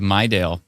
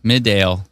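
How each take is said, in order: First: The first syllable sounds like 'my'. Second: The first syllable sounds like 'mid'. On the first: This is the usual way to say it. The speaker calls it right. "instead of Mydale" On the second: Someone else said it this way. The speaker calls it wrong. "the female voice on the emergency alert through the radio in Estevan pronounced it Midale"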